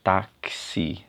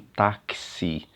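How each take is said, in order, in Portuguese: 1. O x é pronunciado como dois sons, k e s. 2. O x é pronunciado como dois sons, k e s.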